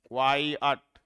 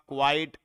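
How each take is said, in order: First: क्वाई अट broken into two distinct beats; two separate syllables. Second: क्वाइट said as a single syllable; run as one syllable. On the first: Teacher showing both parts are separate, क्वाई अट in two syllables. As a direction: separate क्वाई from अट, giving each its own weight. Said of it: "ये अलग है और ये अलग है". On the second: Teacher showing students the likely mistake, क्वाइट as one syllable. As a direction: run क्वाइट together, no break before the final t. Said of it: "क्वाइट को एक नहीं होगा". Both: Shown as a demonstration.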